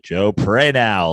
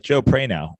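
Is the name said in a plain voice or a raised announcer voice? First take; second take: announcer; plain. First: It is said in a raised, hyped announcer voice. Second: It is said in a plain, ordinary speaking voice. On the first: "they go up and they're like" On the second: "I'm like"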